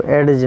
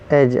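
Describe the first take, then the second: First: "ایڈج" with a D sounded before the J; wrong pronunciation. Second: "ایج" with no D before the J; silent D. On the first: Teacher warning learners off this form, mispronounced with D sounded. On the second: Teacher giving the correct word, said with silent D. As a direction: drop the D, going straight to J in "ایج". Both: Shown as a demonstration. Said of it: "ایڈج نہیں آئے گا بلکہ".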